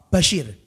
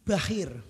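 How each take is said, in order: First: The name is said with a clear sh sound. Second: The name is said without the sh sound. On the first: "Namanya Bashir" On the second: "goro-goro cadel"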